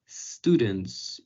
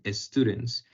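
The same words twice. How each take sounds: First: The word starts directly with the s sound. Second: The word starts with an added e vowel sound. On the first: The speaker calls it right. "es difícil decir students" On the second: The speaker calls it wrong. "y no decir students"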